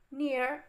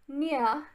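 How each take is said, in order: First: It is said in an American accent. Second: It is said in a British accent.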